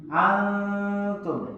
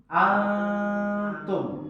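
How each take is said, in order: No difference in how they are said.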